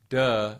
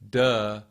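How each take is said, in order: No difference in how they are said.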